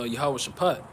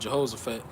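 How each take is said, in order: First: The name begins with 'Yahweh' as two words. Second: The name begins with 'Jeho' as one word. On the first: This is the original form of the name. The speaker calls it right. "the correct way to pronounce it is" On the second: This is the form printed in the Bible. The speaker calls it wrong. "when you read it in the Bible, it's going to say"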